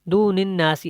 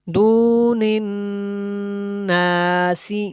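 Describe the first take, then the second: First: The nasal n sound is cut short. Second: The nasal n sound is held for a while. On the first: The speaker calls it wrong. "ऐसे नहीं पढ़ना, इस तरह इसका गुन्ना जो है वो ख़त्म हो जाएगा" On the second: The speaker calls it right. "थोड़ी देर के लिए आवाज़ को आपने उसी तरह जारी रखना है"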